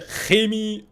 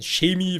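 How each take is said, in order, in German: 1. Das ch am Anfang ist hart. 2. Das ch am Anfang klingt wie sh. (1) "Wir sagen alle Chemie" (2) "fast ein bisschen mit S C H"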